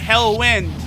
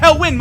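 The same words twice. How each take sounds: First: It is said flatly, with little energy. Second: It is said loudly, with lots of energy. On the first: "I'm not really like monotone" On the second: "a lot of energy"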